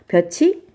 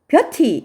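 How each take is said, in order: First: The middle consonant is a ch sound. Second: The middle consonant is a plain t sound. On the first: The speaker calls it right. "표준 발음대로 볕이라고 읽으셔야" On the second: The speaker calls it wrong. "볕이 이렇게 발음할 수 있잖아"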